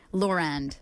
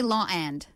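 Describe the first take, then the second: First: "Law and" linked with an R, like "lor-and"; connecting R. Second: "law and" as two separate words, no R between; no connecting R. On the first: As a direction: slip an R between "Law" and "and". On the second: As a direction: keep a clean vowel break in "law and". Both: Shown as a demonstration. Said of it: "add what's called a connecting R".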